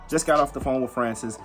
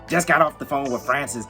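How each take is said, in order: First: It is read in the speaker's plain voice. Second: It is read imitating the woman's voice.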